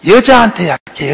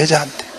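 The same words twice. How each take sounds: First: 여자한테 hit firmly, then a falling end; stress on 여자한테. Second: 여자한테 repeated much softer, falling away; quiet echo. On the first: The preacher tells the congregation the Americans' weakness, stressing 여자한테. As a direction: lean on 여자한테 for the punchline. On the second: The preacher repeats 여자한테 to the congregation as a quiet aside. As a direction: toss off 여자한테 as a hushed aside. Echoed punchline, dropped low. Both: Acted.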